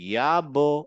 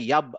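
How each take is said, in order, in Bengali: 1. শেষের ব্যঞ্জনটি একটু ইকো নিয়ে বাউন্স করে। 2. শেষের ব্যঞ্জনটি ইকো ছাড়া সপাটে থেমে যায়। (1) "এরকম একটা বাউন্সিং হচ্ছে" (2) "আমি কিন্তু বলছি না ইয়াব"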